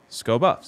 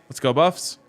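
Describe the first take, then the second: First: 'Let's go' is said fast and blends into 'sco'. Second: Both words of 'let's go' are said separately.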